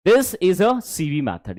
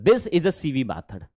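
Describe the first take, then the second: First: Very slow, careful enunciation; slow model sentence again. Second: Slow, deliberate teaching read; slow model sentence. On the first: Teacher repeats the method slowly for the class. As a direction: lay each word down slowly. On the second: Teacher reads the method out slowly for the class. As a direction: spell it out word by word. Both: Shown as a demonstration. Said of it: "slow model sentence".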